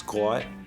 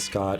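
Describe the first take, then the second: First: It is said in a Pittsburgh local accent. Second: It is said in a standard American accent. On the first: The speaker calls it right. "it's Scott" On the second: The speaker calls it wrong. "it's not Scott"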